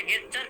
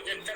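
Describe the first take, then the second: First: গেচ্চার with a hard g at the start; hard g pronunciation. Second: জেচ্চার with a soft j at the start; soft j pronunciation. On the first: Teacher showing students how some say it, গেচ্চার with hard g. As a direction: open গেচ্চার on "ge", as in get. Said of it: "কেউ উচ্চারণ করে". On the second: Teacher showing students the other reading, জেচ্চার with soft j. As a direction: open জেচ্চার on "je", as in jet. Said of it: "কেউ জেচ্চার উচ্চারণ করে". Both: Shown as a demonstration.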